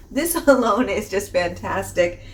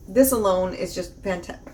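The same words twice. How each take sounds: First: A real laugh breaks up the line; giggling mid-sentence at herself. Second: Said in the usual way. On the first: Real, not acted. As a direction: laugh through it and finish the sentence. Laughs through the restarted sentence.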